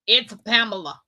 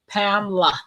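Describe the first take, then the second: First: "Pamela" said the plain American way, PAM-e-la with stress on the first syllable; firm correction: "Pamela" as PAM-e-la, first syllable stressed; correct own name. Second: Put-on southern accent. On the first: Shown as a demonstration. Correcting a ride share driver, "Pamela" said firmly as PAM-e-la. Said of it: "My name ain't Pamela". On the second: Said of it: "with that southern accent".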